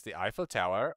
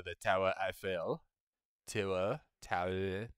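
First: Said in the usual way. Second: TOWER EIFFEL said as a rough French "tour Eiffel"; French pronunciation. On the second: Acted.

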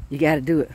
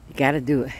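Both takes have the same delivery.

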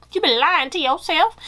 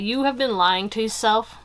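First: Higher-pitched, put-on voice for emphasis; exaggerated callout. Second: Said in the usual way. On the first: Real, not acted. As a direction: call them out in an exaggerated high voice. Playful emphatic repeat of the line.

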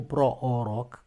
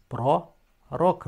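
First: Pro-oroc with a doubled o, slowly; wrong pro-oroc. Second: Pro-roc slowly in two parts; correct pro-roc. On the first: Teacher shows the mistake, pro-oroc with an extra o. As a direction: split pro-oroc as 'pro... o-roc'. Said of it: "nu pro-oroc". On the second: Teacher separates the syllables, pro-roc said slowly. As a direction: say 'pro... ROC', single o each. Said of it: "scris pro-roc". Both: Shown as a demonstration.

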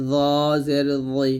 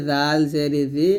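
First: Heavy dh, rounded into i in "জ জের জই"; thick za. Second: Light dh, clean i in "জাল জের জি"; thin dhal. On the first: Teacher setting za against dhal, heavily pronounced "জ জের জই". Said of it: "জ মোটা করে". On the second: Teacher setting dhal against za, lightly pronounced "জাল জের জি". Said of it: "জাল পাতলা করে". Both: Shown as a demonstration.

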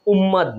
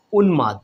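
First: উম্মাদ said um-maad, with doubled m; wrong উম্মাদ, m in place of n; mistaken m sound. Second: উন্মাদ said un-maad, with a clear n; careful correct উন্মাদ, n then m; correct n sound. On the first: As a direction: show the error to reject, উম্মাদ with no n. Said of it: "উম্মাদ না". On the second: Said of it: "এখানে ন আছে". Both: Shown as a demonstration.

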